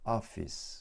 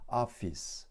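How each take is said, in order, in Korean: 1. 첫 모음은 열려 있고, 'o'와 'ah' 사이예요. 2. 첫 모음은 열려 있고, 'o'와 'ah' 사이예요.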